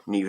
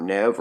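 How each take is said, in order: First: "Neve" with long ee, like "Neev"; long-ee pronunciation. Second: "Neve" with short e, like "Nev"; short-e pronunciation. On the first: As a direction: say "Neve" to rhyme with "sleeve". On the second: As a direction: say "Neve" to rhyme with "rev". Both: Shown as a demonstration. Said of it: "however you say that".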